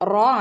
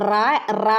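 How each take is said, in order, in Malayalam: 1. "r" ന് ശേഷം വൃത്താകൃതിയിലുള്ള o സ്വരമാണ് വരുന്നത്. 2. "r" ന് ശേഷം തുറന്ന a സ്വരമാണ് വരുന്നത്. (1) "റോ ആണ്" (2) "റാ റാ എന്ന് പറയരുത് കേട്ടോ"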